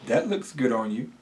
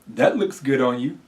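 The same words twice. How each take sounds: First: It is said in a doubtful, unflattering tone. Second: It is said warmly, with sincere enthusiasm. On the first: The compliment is not really meant. "say it in a way that isn't as flattering" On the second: The compliment is genuinely meant. "You can read it as if you truly mean it"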